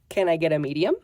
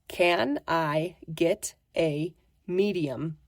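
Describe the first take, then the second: First: The words are blended together. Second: The words are said separately. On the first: "when you put it together, it sounds like this" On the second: "let's look at the phrase again"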